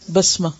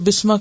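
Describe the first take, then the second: First: The first vowel is an 'a' sound. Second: The first vowel is an 'i' sound. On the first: The speaker calls it right. "हालांकि वो असल में क्या है" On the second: The speaker calls it wrong. "बाज लोग उसको बिस्मा कहते हैं"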